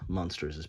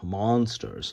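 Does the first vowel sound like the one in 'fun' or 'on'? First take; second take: fun; on. First: The first vowel sounds like 'u' in 'fun'. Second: The first vowel sounds like 'o' in 'on'. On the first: "I pronounce it Munsters" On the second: "instead of monsters"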